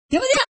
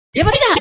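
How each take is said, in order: First: Ya apa tidak with tidak rising, higher and softer; rising question. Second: Ya apa tidak with tidak falling firmly; falling question. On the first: Preacher asks the crowd again, rising on tidak. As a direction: lift tidak up as a real question. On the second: Preacher pressing the crowd, falling on tidak. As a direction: ask Ya apa tidak as a statement, dropping on tidak. Preacher asks audience rhetorically. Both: Shown as a demonstration.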